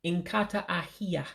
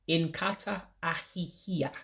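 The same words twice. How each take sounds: First: Inkata ahia with the syllable hi left out; teacher's slip before correcting; mispronounced. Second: Inkata ahihia with the full ahihia, three syllables; teacher repeating the word correctly; corrected pronunciation. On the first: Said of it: "I said it incorrectly". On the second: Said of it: "let me say it right". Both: Shown as a demonstration.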